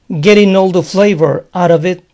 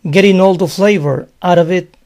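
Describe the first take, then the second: The two takes are said the same way.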